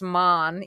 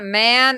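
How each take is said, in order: First: The syllable has a German-like sound. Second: The syllable has a plain English sound. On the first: The speaker calls it right. "it's man. ... It kind of sounds like kind of like German" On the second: The speaker calls it wrong. "not man"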